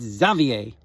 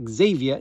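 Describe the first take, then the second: First: Xavier said the French way, zah-vee-AY, with no R at the end. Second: Xavier said the English way, ZAY-vee-er, with a hard Z. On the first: Dad correcting himself to the French Xavier, zah-vee-AY. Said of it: "It's the same spelling, right, in French". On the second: Dad mispronouncing the French boyfriend's name, Xavier as ZAY-vee-er. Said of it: "it's Xavier". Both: Shown as a demonstration.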